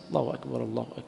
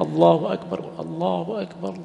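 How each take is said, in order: First: Softer, feeble call of God is great; weak call to prayer. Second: Raised, drawn-out call. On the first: Teacher mocking a weak muezzin, feeble and soft. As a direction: mimic a weak muezzin who barely lifts his voice. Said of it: "بعض الإخوة الصوت ضعيف جدًا". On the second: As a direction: call it out full and slow like the adhan. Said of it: "يقوم يعني يؤذنه بجانبه". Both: Shown as a demonstration.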